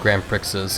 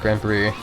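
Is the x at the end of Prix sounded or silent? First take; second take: sounded; silent. First: The final x is pronounced aloud. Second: The final x is silent. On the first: The speaker calls it wrong. "I also used to call um, Grand Prix like Grand Prixes" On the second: The speaker calls it right. "apparently the X is just silent"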